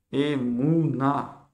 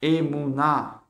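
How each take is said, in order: First: Emouna stretched out very slowly, syllable by syllable; very slow spelled-out word. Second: Slow Hebrew word. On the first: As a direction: draw out Emouna so students can copy. (« Emouna » prononcé très lentement, syllabe par syllabe) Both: Shown as a demonstration. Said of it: "Emouna, ça veut dire la foi".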